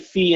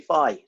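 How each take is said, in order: First: The word sounds like 'fee'. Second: The word sounds unlike 'fee'. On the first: "you say fee" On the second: "I say phi"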